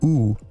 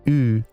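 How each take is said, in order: First: The vowel is made far back in the mouth. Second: The vowel is made in the middle of the mouth. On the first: It marks typical American speech. "The typical American U is pronounced at the far back of the mouth" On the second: It marks Californian speech. "The Californian U is pronounced more in the middle of the mouth"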